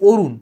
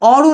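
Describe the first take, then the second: First: The first vowel is a closed 'o' sound. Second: The first vowel is an open 'aw' sound. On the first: The speaker calls it right. "এটা হয়ে গেছে অরুণ" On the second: The speaker calls it wrong. "এটা কিন্তু অরুণ হয়নি"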